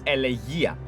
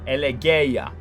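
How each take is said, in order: First: The vowel after the G is 'ee'. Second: The vowel after the G is not 'ee'. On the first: The speaker calls it right. "It's Elegia" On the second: The speaker calls it wrong. "It's not Elegeia. Okay. It's not like that"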